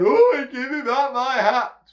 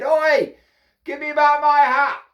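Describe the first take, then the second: First: High, loud, slower monkey wail; mimicking monkeys. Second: High, loud holler; shouted demand. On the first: Monkeys copying the hatter from above, squealed mimicry. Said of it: "they're copying me". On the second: Hatter baiting the copycat monkeys, shouted demand. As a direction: call up sharply into the trees. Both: A narrator's reading.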